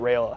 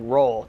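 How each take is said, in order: First: The name is said in full, like 'Rayola'. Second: The name is said short, like 'Roll'. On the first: This is the name's usual pronunciation. The speaker calls it right. "not Rayola" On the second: This is how the quarterback said the name. The speaker calls it wrong. "He said like Roll"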